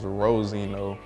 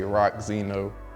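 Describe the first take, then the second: First: The name starts with a soft 'ro' sound. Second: The name starts with a hard 'rock' sound. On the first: The speaker calls it right. "it's Rosino" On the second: The speaker calls it wrong. "they always say Rock Zeno"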